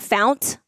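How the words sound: The word ends with a t sound. The speaker calls it wrong. "I pronounce it fount, because that's how we say it in Baltimore"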